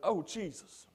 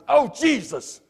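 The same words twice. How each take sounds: First: It is said softly and earnestly, like a plea. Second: It is said sharply, in an annoyed tone. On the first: It is a real call for help to God. The speaker calls it right. "as a prayer" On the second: It is an exclamation of irritation. The speaker calls it wrong. "if you really get aggravated"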